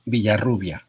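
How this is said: Spanish sounds, with a B and rolled R. This is the form for people who speak Spanish. "if you speak Spanish, it's Villarrubia. It has a B sound for the V, and the R is roll"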